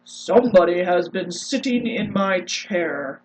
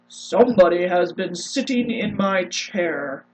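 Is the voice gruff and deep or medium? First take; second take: gruff; gruff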